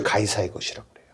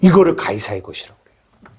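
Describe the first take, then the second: First: 속삭임. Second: Said in the usual way. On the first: Real, not acted. 결론을 낮게 말함.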